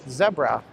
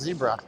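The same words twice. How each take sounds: First: It is said in an English accent. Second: It is said in an American accent.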